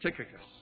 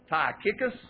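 First: The name is said in a standard way. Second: The name is said with a hillbilly accent. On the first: The speaker calls it right. "It's Tychicus" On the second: The speaker calls it wrong. "the hillbilly in me wants to say Tychicus. And that's not how you say it"

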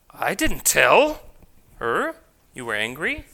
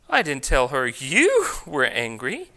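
First: The stress falls on the word tell. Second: The stress falls on the word you. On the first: It was implied rather than said outright. "I merely just implied it" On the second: A different person was said to be angry. "I told her someone else was angry"

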